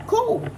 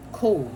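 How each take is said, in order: First: "Cool." jumps up high and bright; mock-chirpy cool. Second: Said in the usual way. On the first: Reader taunting the wrongdoers, sarcastic high "Cool.". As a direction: sing out "Cool." in a much higher mock-cheerful voice.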